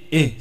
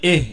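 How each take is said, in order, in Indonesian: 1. Vokalnya terdengar seperti 'e' terbuka. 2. Vokalnya terdengar seperti 'e' terbuka.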